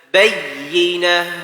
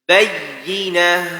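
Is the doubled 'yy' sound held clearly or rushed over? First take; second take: clear; clear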